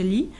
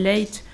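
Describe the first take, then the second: First: The name ends with a vowel sound. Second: The name ends with a t sound. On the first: The speaker calls it right. "on doit plutôt le prononcer Lee" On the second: The speaker calls it wrong. "il l'appelle Late"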